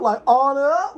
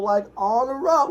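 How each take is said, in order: First: Hyped repeat of the title. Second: Excited recall. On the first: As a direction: punch it harder the second time. Repeating the movie title, louder. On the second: Repeating the movie title. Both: Real, not acted.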